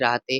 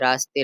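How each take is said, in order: First: The middle sound is an h. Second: The middle sound is an s.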